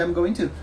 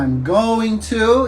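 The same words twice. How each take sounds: First: Said in the usual way. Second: Each word of "I'm going to" drawn out slowly; slow careful demo. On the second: Shown as a demonstration. Teacher to students, showing the full form slowly. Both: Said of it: "que é a junção de".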